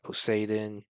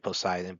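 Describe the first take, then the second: First: The name is said with Japanese-style pronunciation. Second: The name is said with English pronunciation. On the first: "that's the Japanese pronunciation" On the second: "English, we probably we would say Poseidon"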